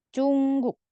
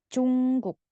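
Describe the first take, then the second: The two takes are said the same way.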